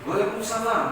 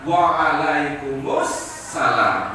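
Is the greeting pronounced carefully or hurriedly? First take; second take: hurriedly; carefully. First: The greeting is pronounced quickly and clipped. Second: The greeting is pronounced carefully and fully. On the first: The speaker calls it wrong. "apalagi kalau buru-buru" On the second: The speaker calls it right. "sesuai tajwid"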